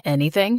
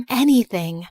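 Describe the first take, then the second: First: "Anything?" low with a rising end; questioning ANYTHING. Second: "Anything." as a settled statement; confirming ANYTHING. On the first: Boyfriend checks what she can do, low questioning "Anything?". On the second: Girlfriend confirms she can do it, assured "Anything.". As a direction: answer "Anything." firmly, without a questioning rise. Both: Acted.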